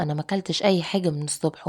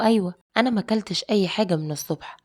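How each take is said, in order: First: Mildly wounded, embarrassed repeat; embarrassed and hurt. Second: Said in the usual way. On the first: Retold or imitated. Bride to husband who mocked her weight, mildly hurt. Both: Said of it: "بصيت له بكسفة وبزعل".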